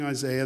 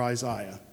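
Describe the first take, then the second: First: It is said with an American pronunciation. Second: It is said with a British pronunciation.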